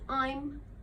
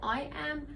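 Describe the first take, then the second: First: It is joined into one short word. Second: It is said as two separate words.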